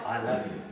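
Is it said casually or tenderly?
tenderly. It is said tenderly, with deep feeling.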